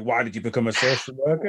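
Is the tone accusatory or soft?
accusatory. It sounds harsh and accusatory.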